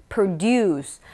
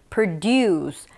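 The two takes are said the same way.

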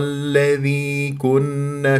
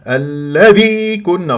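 First: The dh sound is said lightly and smoothly. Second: The dh sound is pressed hard and loud. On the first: The speaker calls it right. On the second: The speaker calls it wrong.

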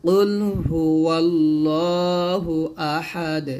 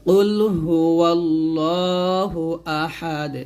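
The two takes are said the same way.

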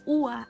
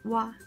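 First: It begins with a separate u vowel. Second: It begins with a w glide. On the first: The speaker calls it wrong. "Não é Uá" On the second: The speaker calls it right. "é Uá. Com um W"

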